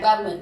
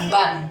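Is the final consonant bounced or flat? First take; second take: bounced; flat. First: The final m is released with a bouncing echo. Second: The final m stops flat without an echo. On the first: The speaker calls it wrong. "bukan bam" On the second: The speaker calls it right. "tidak dipantulkan"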